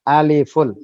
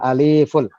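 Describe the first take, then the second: First: The vowel in the second syllable is short. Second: The vowel in the second syllable is long. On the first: The speaker calls it right. "lif jangan dipanjangkan" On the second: The speaker calls it wrong. "bukan aliful"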